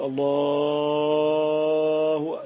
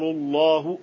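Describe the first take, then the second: First: The long vowel is stretched far beyond normal. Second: The long vowel is held for a normal length. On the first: The speaker calls it wrong. "ينكر على من يمد فوق الأذان الطبيعي، كان يقول الله، لا هذا لا يصح" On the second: The speaker calls it right. "هذا الأذان"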